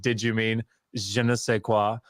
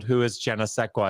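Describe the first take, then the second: First: "je ne sais quoi" said the French way, zhuh nuh say kwah; proper French "je ne sais quoi"; "je ne sais quoi" in correct French. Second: "je ne sais quoi" read as the name "Jenna Sequa"; mispronounced "je ne sais quoi" as "Jenna Sequa"; wrong reading. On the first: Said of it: "And it said". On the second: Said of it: "they had also Googled". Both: Retold or imitated.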